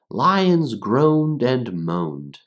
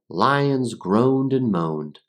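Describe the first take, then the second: First: It is read at a slower pace. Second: It is read at a faster pace.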